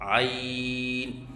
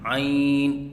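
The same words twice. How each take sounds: First: The word is said without nasal resonance. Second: The word is said with nasal resonance. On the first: The speaker calls it right. "आइन को वस्ती हलक से अदा करें और तीन अलिफ के बराबर लंबा करके पढ़ें" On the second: The speaker calls it wrong. "आवाज़ नाक में लेके जाते हैं, ये गलत है"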